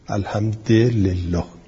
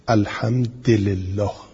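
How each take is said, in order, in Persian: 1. د i دارد و ل i دارد. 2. د i دارد و ل i دارد.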